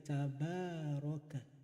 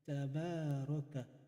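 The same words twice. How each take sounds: First: The vowel after the b is long. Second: The vowel after the b is long.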